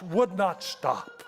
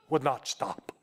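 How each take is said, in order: First: Slow, rising, stretched out; drawn-out emphasis. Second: Said in the usual way. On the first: Shown as a demonstration. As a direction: stretch each word and lift the end.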